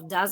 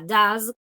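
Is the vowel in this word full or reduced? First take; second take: reduced; full. First: It has a weak, reduced schwa vowel. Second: It has a full, open vowel. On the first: "with the schwa" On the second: "con la, la strat vowel"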